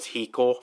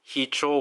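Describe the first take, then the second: First: The middle consonant is a 'k' sound. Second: The middle consonant is a 'ch' sound. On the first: The speaker calls it wrong. "Hicho was Hiko" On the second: The speaker calls it right. "his name is actually pronounced as Hicho"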